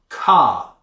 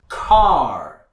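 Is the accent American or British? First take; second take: British; American. First: It has no R after the vowel. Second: It has a strong R after the vowel. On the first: "If the R happens after the vowel sound, British people wouldn't pronounce it" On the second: "you need to pronounce that R any place you see it in the word, and it needs to be pronounced very strongly"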